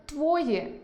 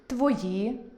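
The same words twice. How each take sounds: First: Твої stressed on the first syllable, твОї; dialect stress твої. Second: Твої stressed on the last syllable, твоЇ; standard stress твої. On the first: Teacher shows the dialect stress, твОї. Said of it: "можна почути ... замість". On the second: Teacher shows the literary stress, твоЇ. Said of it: "замість". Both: Shown as a demonstration.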